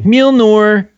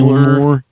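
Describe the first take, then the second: First: It is said in Dennis Reynolds's Philadelphia accent. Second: It is said in his own plain voice.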